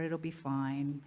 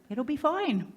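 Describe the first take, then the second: First: Slow, low, settling-for-it reassurance; complacent shrug. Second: High, lilting mock reassurance; mock cheerful. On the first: Acted. Speaker voicing those settling for another year, low complacency. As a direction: let it drop, low and slow, as if resigned. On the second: Speaker echoing the complacent choice to the audience, high mock cheer. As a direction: lift it high, brightly dismissing any worry. Mocking repeat of complacent line.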